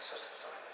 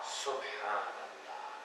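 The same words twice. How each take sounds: First: It is said quickly and mechanically, without feeling. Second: It is said slowly and with heartfelt feeling.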